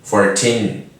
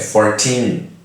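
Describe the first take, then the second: First: The stress is on the second syllable. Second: The same.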